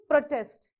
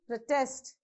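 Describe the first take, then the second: First: The stress is on the first syllable. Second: The stress is on the second syllable. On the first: The word is used as a noun. "if you want to use that as a noun, you have to stress on the first syllable" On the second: The word is used as a verb. "you have to use the force on the second syllable"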